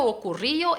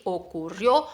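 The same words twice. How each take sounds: First: Ocurrió said with the stress moved off the final -rió; the wrong take of ocurrió, stress not on -rió. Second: Ocurrió with the stress on the last syllable, rió; stress on the final O. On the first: Teacher contrasting wrong stress for students, ocurrió said wrongly. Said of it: "es ocurrió". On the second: Teacher showing the student the stress, Ocurrió stressed on -rió. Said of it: "La sílaba fuerte ahí es la O final". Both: Shown as a demonstration.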